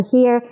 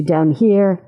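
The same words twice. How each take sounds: First: Here placed higher up; higher placement. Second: Lower placement. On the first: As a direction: lift the pitch up on here. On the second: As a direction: voice set low for here. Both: Shown as a demonstration. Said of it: "my teenage voice lives about here".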